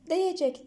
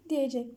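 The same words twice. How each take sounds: First: Diyecek said as "diyicek", vowel narrowed to i; the colloquial narrowed Diyecek, shown as wrong; wrong narrowed form. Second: Diyecek said with a clear open e, "di-ye-cek"; the correct written diyecek, carefully; correct form. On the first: Teacher showing students the wrong spoken form, narrowed. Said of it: "Diyecek değil". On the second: Teacher giving students the correct form, clearly. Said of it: "diyecek deriz". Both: Shown as a demonstration.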